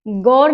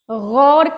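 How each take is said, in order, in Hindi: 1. इसकी शुरुआत साफ़ और सख़्त g की आवाज़ से होती है। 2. इसकी शुरुआत गले से निकलने वाली, खरखराती gh की आवाज़ से होती है। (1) "नहीं" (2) "ग पैर बिंदी वाले शब्द"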